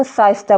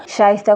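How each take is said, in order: First: साइस्ता with "s" in place of "sh"; sheen mispronounced as seen. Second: शाइस्ता said with a clear "sh" at the start; correct sheen. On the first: Retold or imitated. Teacher imitates unclear speakers saying the name, mispronunciation. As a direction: demonstrate the slip, starting साइस्ता on a plain s. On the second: Shown as a demonstration. Teacher gives a name starting with sheen, correct pronunciation. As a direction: begin शाइस्ता with a hushing sh sound. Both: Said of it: "शाइस्ता को साइस्ता बोलेगा".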